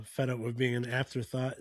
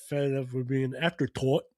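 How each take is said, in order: First: Said in the usual way. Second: Lightly imitated Irish accent. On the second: Podcaster imitating a fed-up wrestler, mock Irish accent. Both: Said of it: "in his Irish accent".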